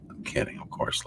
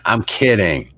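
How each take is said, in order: First: Whispered aside, very soft; whispered to himself after a joke. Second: Said in the usual way. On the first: Real, not acted. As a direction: breathe it out under your breath. Repeats it under his breath.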